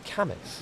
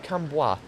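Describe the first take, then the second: First: The name is pronounced the English way. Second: The name is pronounced the French way. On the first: The speaker calls it right. "It's Camus apparently" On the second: The speaker calls it wrong. "I went for the French one"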